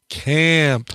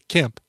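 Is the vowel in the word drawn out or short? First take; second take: drawn out; short. First: The vowel is drawn out long. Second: The vowel is short and plain. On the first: The name is spelled with a double vowel. "I say it like that because it's got two A's" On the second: The name is spelled with a single vowel. "If it was one A, I'd say Camp"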